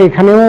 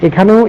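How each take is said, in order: No difference in how they are said.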